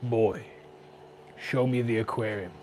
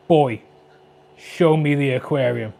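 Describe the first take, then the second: First: Much softer, hushed take of the line; hushed, toned-down reread. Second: Booming epic warrior read, louder; mock God of War command. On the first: Shown as a demonstration. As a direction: say it again quietly, dropping the epic act. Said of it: "Why did I read that like". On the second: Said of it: "Why did I read that like, um, God of War?".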